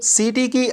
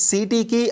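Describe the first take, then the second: The two takes are said the same way.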